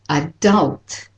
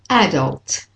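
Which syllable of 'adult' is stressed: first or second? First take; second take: second; first. First: The stress is on the second syllable. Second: The stress is on the first syllable. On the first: "And for the American, it's adult" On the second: "for the British and Australian, it's adult"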